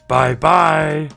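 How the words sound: It is said in a big, gruff voice.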